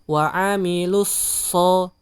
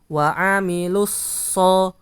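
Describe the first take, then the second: The two takes are said the same way.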